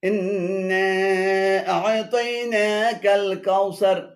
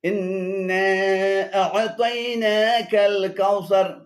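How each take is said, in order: Both takes have the same delivery.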